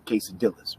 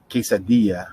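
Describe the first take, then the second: First: QUESADILLAS with the LL sounded as an English L; mispronounced L's. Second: QUESADILLA with the LL as a Y, no L. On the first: Acted. Teacher mocking a customer ordering, QUESADILLAS with hard English L's. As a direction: say QUESADILLAS like "kay-sa-dill-as". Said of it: "You definitely don't wanna be that guy or gal". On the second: Shown as a demonstration. Teacher correcting the customer, QUESADILLA with a Y sound. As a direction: say QUESADILLA like "kay-sa-dee-ya". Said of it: "two L's make a Y sound".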